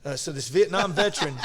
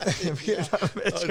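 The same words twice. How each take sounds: First: Said in the usual way. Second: Slow, amused repeat through a laugh; teasing his old friend, slowly laughing out Vietnam; laughing retake. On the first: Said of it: "'cause you're old". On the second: Shown as a demonstration. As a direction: lean on Vietnam, drawn out and chuckling.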